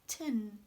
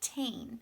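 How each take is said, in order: First: The syllable has a short, reduced vowel. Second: The syllable has a full, long vowel. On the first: The speaker calls it right. "It sounds like tin" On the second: The speaker calls it wrong. "It does not sound like tain"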